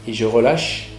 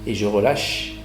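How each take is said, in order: Both takes have the same delivery.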